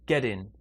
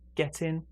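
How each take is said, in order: First: The t is linked as a soft d sound. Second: The t is linked as a clear t sound. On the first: "For me, it's like a D sound" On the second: "For you, it could be a T sound"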